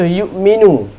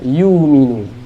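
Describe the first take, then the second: First: A glottal stop follows the first syllable. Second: The glottal stop becomes a long vowel.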